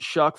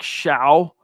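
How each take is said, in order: First: The name rhymes with duck. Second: The name rhymes with cow. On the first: The speaker calls it right. "you pronounce it Shuck" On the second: The speaker calls it wrong. "It looks like Shao"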